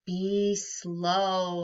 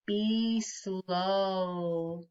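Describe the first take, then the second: First: Said in the usual way. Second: A drawn-out, calm be slow; slowly. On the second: Shown as a demonstration. Teacher modelling the calm breath line for kids, slowly. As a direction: stretch "slow" out like a long breath.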